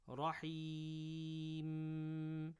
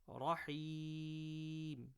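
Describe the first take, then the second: First: The final m is held with a nasal hum. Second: The final m is stopped short, unextended. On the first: The speaker calls it wrong. "be careful not to do gunna or extended gunna at the end of the sentence. So don't say" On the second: The speaker calls it right. "rather just Rahim. So you just stop on a single meme"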